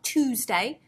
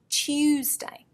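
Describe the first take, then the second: First: The u is a plain oo without y. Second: The u starts with a y glide. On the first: The speaker calls it wrong. "not Tuesday" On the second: The speaker calls it right. "We actually add a y"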